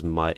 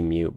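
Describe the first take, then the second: First: The vowel is a short 'uh' sound. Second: The vowel is a long 'yoo' sound. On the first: The speaker calls it wrong. "it just looks like it's pronounced as mutt" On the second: The speaker calls it right. "it really should be mute"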